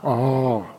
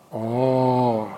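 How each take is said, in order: First: The word is said short. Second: The word is long and drawn out.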